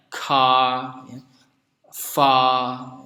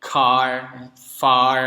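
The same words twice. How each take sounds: First: "car" and "far" ending on a long open ah; British silent R. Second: "Car" and "far" ending in a strong r; American clear R. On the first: Teacher comparing British with American, r-less endings. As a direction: drop the final r in "car", "far". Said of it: "di British biasanya bunyi R-nya tidak dilafalkan". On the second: Teacher comparing American with British, clear r endings. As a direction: sound the final r in "Car", "far". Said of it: "aksen Amerika itu bunyinya jelas R-nya". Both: Shown as a demonstration.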